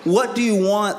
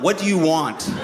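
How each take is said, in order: First: It sounds exasperated, like at wits' end. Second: It sounds weary and resigned, like giving up.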